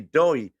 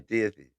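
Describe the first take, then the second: First: The name is said in one syllable, 'Doy'. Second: The name is said in two syllables, 'Dah-thee'. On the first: The speaker calls it right. "It's actually it's actually Doy" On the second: The speaker calls it wrong. "I thought the name was Dathy"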